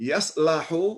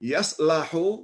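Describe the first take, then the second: First: The middle syllable has an 'a' vowel. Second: The same.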